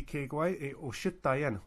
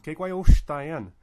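First: "Kekwai e Oshitayan" slow, the stress moved onto "shi"; expected wrong stress. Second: "Kekwai Oshtayan" slow and loud, punching the "O" of "Oshtayan"; stress on OSH. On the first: Teacher showing what you'd wrongly expect, "Oshitayan" stressed on "shi". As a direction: lean on the middle "shi" of "Oshitayan" as a full syllable. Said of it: "You'd expect that to be". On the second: Teacher showing the stress that stays put, "Oshtayan" stressed loudly on the O. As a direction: hit "Osh" hard in "Oshtayan", the sh run straight into "tayan". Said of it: "Uh, the same with".

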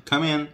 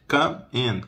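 First: "come in" fused as cu-min; quick one-word "come in"; linked words. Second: "Come in" with a gap between; word-by-word teaching delivery; separated words. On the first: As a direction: run "come in" together, higher. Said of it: "Emenda tudo". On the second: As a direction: split "Come in" carefully. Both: Shown as a demonstration.

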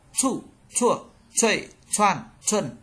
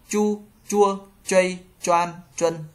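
First: "Chu, chua" as ts with a puff, pitch dropping; aspirated C. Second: "Chu, chua" with light unaspirated ch, held level; light Z sound. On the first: Teacher drilling C for learners, "Chu" sharply aspirated. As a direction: pop out "chay, choan, chuân" short with a burst of air. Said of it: "C bật". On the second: Teacher reading chart two, "Chu" light and unaspirated. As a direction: drill "chay, choan, chuân" evenly, without a puff. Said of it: "Z đọc giống trở nhẹ". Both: Shown as a demonstration.

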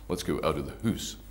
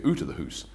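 First: American-Scottish lilt, "hoose" for house; Canadian-Scottish "hoose", "out" less rounded; Canadian-Scottish accent. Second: "out" said as "oot", matching "hoose"; Scottish-tinged Canadian "oot" and "hoose". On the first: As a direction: imitate a Vancouver accent with Scottish vowels. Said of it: "kind of American Scottish". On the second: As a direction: say "out of the hoose" with long oo in both. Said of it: "or they say". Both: Shown as a demonstration.

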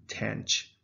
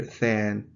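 First: Tanch said slowly, rhyming with ranch; American tanch. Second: Than said slowly, like thank with no K; British than. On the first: Teacher giving the American way, slow and clear. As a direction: draw out tanch with a ch ending. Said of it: "it is pronounced tanch". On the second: Teacher contrasting British than with tanch, slowly. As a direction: stretch out than, no K at the end. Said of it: "So that's the difference". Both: Shown as a demonstration.

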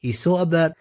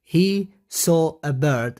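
First: Said in the usual way. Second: Slow, word-by-word reading. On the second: Shown as a demonstration. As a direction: read it out slowly for learners. Teacher reads sentence slowly, then repeats.

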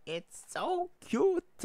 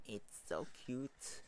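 First: Loud, very high, drawn-out squeal; overwhelmed fangirl shriek, slow and piercingly high; gushing squeal. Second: Slow, softened coo of adoration; hushed, drawn-out adoring murmur; soft gushing. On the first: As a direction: squeal it at full volume, stretching every word. Gushing escalates over cute panels. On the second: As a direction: coo it softly, drawing the words out. Gushing, softer take before squeal. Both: Real, not acted.

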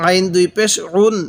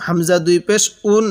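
First: "উন" pressed from the throat as ain; pressed Arabic ain. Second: "উন" begun as hamza, without pressure; unpressed hamza. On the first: Teacher reviews ain once more, "উন" with pressure. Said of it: "আইনটা পড়ার সময় একটু চাপ দিয়ে পড়ব". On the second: Teacher reviews hamza after ain, "উন" without pressure. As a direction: start "উন" lightly, no pressed ain. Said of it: "হামজাটা পড়ার সময় একটু চাপ দিব না". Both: Shown as a demonstration.

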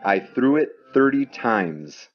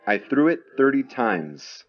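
The two takes are said the same way.

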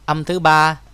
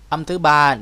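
Both takes have the same delivery.

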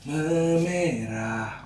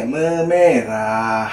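First: Memerah stretched very slowly, pitched higher; higher drawn-out memerah. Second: Memerah sung slow and stretched; drawn-out memerah. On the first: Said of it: "Ini ya tadi ya, yang tadi". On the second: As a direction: stretch out Memerah slowly, level pitch. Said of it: "Gimana ya memerahnya?". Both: Shown as a demonstration.

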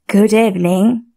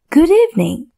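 First: A lightly voiced snake, barely changed; snake's reply. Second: Put-on a high, boyish little prince voice; little prince greeting. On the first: Snake answers the prince's greeting.

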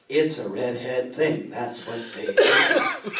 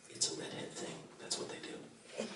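First: Slow, drawn-out, louder refrain; slow punchline. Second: Hushed conspiratorial whisper to the crowd; whispered aside. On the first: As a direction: land the catchphrase slowly for the crowd. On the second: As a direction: lean in and whisper the joke. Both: Acted.

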